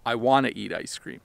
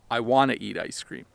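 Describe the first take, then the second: First: "Want to" is squished together into "wanna". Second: The same.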